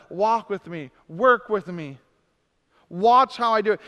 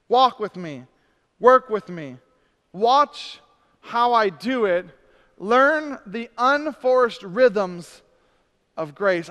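First: Said in the usual way. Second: Each phrase slow and deliberate; slow and emphatic. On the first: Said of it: "repeated plainer". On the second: Shown as a demonstration. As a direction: lean on every command. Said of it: "slow emphatic reading".

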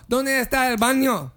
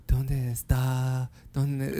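First: Higher, confident Spanish question; phrase remembered. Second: Slow, low, halting Spanish; groping for words. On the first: Customer finally finding the Spanish phrase, higher and sure. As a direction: come out with the whole question, pitched up. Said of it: "yeah, exactly. I go". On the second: Customer trying to recall Spanish, slow and halting. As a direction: feel for the phrase, lower and unfinished. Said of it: "I was trying to think". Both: Retold or imitated.

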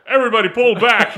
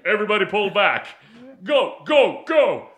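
First: Loud, laughing mock yell of the order; a laughing, hammed-up movie shout; mock Tyson yell. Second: Loud movie-style order; hammed-up loud command; mock Tyson yell. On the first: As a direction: bark the order out, half laughing. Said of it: "he's like". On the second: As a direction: shout the retreat order, a bit hammed up. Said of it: "You got a sore throat?".

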